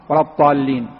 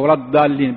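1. تبدأ الكلمة بصوت t المفخَّم. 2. تبدأ الكلمة بصوت d العادي. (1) "لا يقرأها بالطاء" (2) "بحرف الداء"

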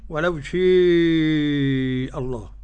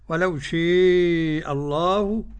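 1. الألف الطويلة تميل نحو صوت e. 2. الألف الطويلة تميل نحو صوت e.

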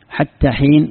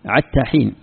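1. تبدأ الكلمة الأولى بصوت h خفيف النفس. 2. تبدأ الكلمة الأولى بصوت ayn الحلقي.

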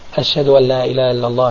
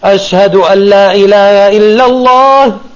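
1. Die Phrase wird leise gesagt. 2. Die Phrase wird laut gesagt. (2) "Und dann laut"

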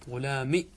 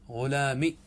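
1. تنتهي الكلمة بكسرة قصيرة. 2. تنتهي الكلمة بكسرة قصيرة.

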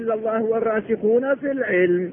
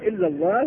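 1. تستمر الجملة دون وقف بعد كلمة الله. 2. يقف الصوت وقفًا تامًا بعد كلمة الله. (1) "يبقى عاطفة" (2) "قلنا إلا الله ووقفنا"

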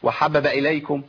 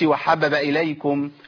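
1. واحدة من الباءات الثلاث تُحذف. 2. واحدة من الباءات الثلاث تُحذف.

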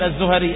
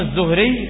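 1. تُسمع حركة بين الهاء والراء. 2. لا تُسمع أي حركة بين الهاء والراء. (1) "لا تقل الزهري، الزهري هذا مرض" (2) "فهو الضبط الصحيح"

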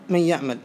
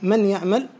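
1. النون تُدغم تماماً في الياء التي بعدها. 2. النون تُنطق بوضوح قبل الياء. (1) "الإدغام هنا واجب" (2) "فليس ذلك بصواب"

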